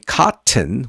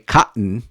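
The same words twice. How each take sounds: First: The middle t is clearly released. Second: The middle t is a throat catch. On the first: "instead of saying cotton" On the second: "That's the glottal T"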